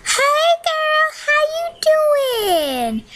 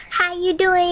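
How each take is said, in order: First: Much higher and slower, sing-song; high, slow greeting. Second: Said in the usual way. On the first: Pretend. Greeting audience in character.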